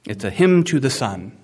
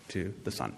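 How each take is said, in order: First: Said in the usual way. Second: Near-silent repeat of "to the sun", much softer; quiet echo. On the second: Real, not acted. Preacher echoing himself to the congregation, barely audible. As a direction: let "to the sun" fall away to almost nothing. Preacher echoes phrase under breath.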